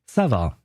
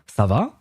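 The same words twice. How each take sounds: First: It is said with a statement intonation. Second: It is said with a questioning intonation. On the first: Replying that one is fine. "the guy in front of you can reply ça va" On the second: Asking how someone is. "if you're asking a question, you would ask ça va"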